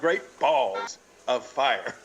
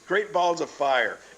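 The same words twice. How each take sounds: First: The stress falls on the word balls. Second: The stress falls on the word fire. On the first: The speaker calls it wrong. "It's not Great Balls of Fire. ... you don't put the emphasis on the word balls" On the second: The speaker calls it right. "It's Great Balls of Fire. ... The emphasis should be on the word fire"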